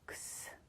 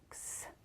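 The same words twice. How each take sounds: First: The letter is said as its bare sound. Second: The same.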